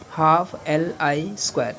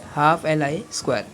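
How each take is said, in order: First: Slow, word by word: half L I square; slow dictation. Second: Said in the usual way. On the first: Shown as a demonstration. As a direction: spell out half L I square slowly for notes. (धीमे-धीमे लिखवाते हुए) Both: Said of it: "कितनी energy store करेगा वो?".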